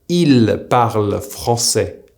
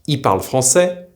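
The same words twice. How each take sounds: First: The L sound of il is pronounced. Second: The L sound of il is dropped. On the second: "will usually be pronounced in a fast-paced conversation"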